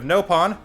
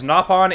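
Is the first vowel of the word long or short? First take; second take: long; short. First: The first vowel is a long O. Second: The first vowel is a short O. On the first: The speaker calls it wrong. "instead of dividing it into no and pawn" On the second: The speaker calls it right. "with a shorter O instead of the longer"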